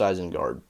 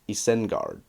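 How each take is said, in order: First: The name is said with its familiar, usual sounds. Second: The name is said with unusual, rule-based sounds. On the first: It is the customary pronunciation. The speaker calls it right. "Everybody knows it's Isengard" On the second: It follows the strict spelling rules. The speaker calls it wrong. "if you applied the Elvish rules very strictly, it would be Isengard, which sounds awful"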